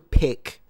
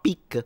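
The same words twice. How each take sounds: First: The word is said without an Italian accent. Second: The word is said with an Italian accent. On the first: The speaker calls it right. "A bone to pick" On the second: The speaker calls it wrong. "not pick"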